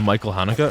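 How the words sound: The name is said with an American pronunciation. The speaker calls it wrong.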